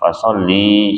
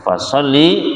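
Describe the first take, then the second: First: The final vowel is held long. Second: The final vowel is kept short. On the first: It is an imperative addressed to a woman. The speaker calls it wrong. "bacanya panjang fasholli salah" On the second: It is a general command to pray. The speaker calls it right. "Shollinya dibaca pendek bukan panjang"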